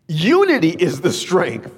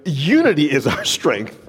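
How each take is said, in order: First: Unity is the strength, each word weighted and slowed; emphatic preacher's slow repeat; slow emphatic restatement. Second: Said in the usual way. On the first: Shown as a demonstration. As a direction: drive home "Unity" slowly.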